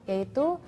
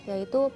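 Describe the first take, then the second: No difference in how they are said.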